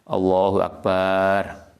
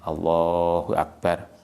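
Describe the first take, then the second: First: The vowel in Akbar is drawn out long. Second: The vowel in Allah is drawn out long. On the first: The speaker calls it wrong. "kalau membacanya Allahu Akbar bare panjang" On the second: The speaker calls it right. "yang dipanjangkan lamnya"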